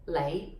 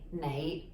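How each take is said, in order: First: The word begins with an L sound. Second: The word begins with an N sound. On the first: "most often pronounced as Lei" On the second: "with an N sound properly"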